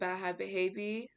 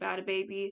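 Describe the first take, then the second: First: The name is said with an h sound. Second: The name is said without an h sound. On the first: The speaker calls it wrong. "I just pronounced it that way just because it has an H" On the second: The speaker calls it right. "I know it's actually pronounced Bad Baby"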